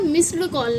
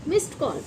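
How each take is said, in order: First: "मिस्ड" with a voiced d before call; wrong d ending. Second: "मिस्ड" said as "mist" before call; correct t ending. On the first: Teacher shows what not to say, मिस्ड with d. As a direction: say "मिस्ड" as "miss-d". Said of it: "ना कि इसे हम बोलते हैं". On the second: Teacher models the phrase, मिस्ड with t ending. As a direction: end "मिस्ड" on t, not d. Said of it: "इसको हम बोलते हैं मिस्ड". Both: Shown as a demonstration.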